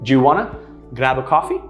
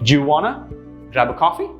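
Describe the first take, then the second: No difference in how they are said.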